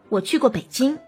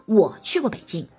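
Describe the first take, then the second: First: The stress falls on 北京. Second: The stress falls on 我. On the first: It answers which city I have been to. "你会很明显的突出北京" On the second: It answers who has been to Beijing. "你们当中有谁去过北京啊"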